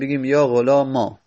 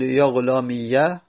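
First: The word ends in a long a. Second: The word ends in i followed by ya. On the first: "اون یا رو به الف تبدیل بکنیم" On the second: "همین رو فتحه بدیم"

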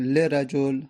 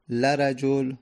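First: The L is followed by an i vowel. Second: The L is followed by an a vowel. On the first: "کسره" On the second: "فتحه"

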